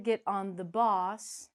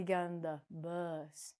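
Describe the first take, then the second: First: "bus" said as "boss", slow; wrong vowel. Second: "bus" with a short uh, slow and softer; correct uh vowel. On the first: Teacher showing the mistake, "bus" mispronounced as boss. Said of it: "we don't". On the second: Teacher showing the right word, "bus" with uh. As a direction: say "bus" low with uh. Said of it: "we use, uh". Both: Shown as a demonstration.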